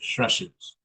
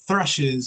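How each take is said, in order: First: The word begins with an s sound. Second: The word begins with a th sound. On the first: The speaker calls it wrong. "they might say thrushes" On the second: The speaker calls it right. "Instead of saying thrushes"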